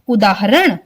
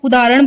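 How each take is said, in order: First: The h sound in the middle is clearly said. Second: The h sound in the middle is left out. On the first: The speaker calls it right. "इसका सही उच्चारण है उदाहरण। ह का sound भी आएगा" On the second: The speaker calls it wrong. "ह की साउंड डालते ही नहीं है, उदाहरण बोल देते हैं"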